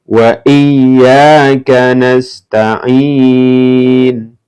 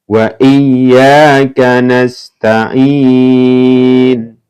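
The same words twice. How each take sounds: No difference in how they are said.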